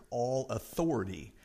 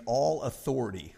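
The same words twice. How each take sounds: First: "all" leaned on, falling, before "authority"; stress on ALL. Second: Said in the usual way. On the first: Shown as a demonstration. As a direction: give "all" the weight in "all authority". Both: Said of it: "I'm gonna emphasize the key words here".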